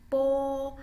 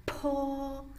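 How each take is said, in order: First: Long, loud, high "Po" with no puff of air; "Po" as a held Mandarin b sound; unaspirated po. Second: High, held "Po" with a puff of air; "Po" as a breathy-released Mandarin p; aspirated po. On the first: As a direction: keep the breath back on the P of "Po". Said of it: "beda dengan yang tadi di atas". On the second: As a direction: blow air onto the hand with the P of "Po". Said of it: "akan terasa anginnya". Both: Shown as a demonstration.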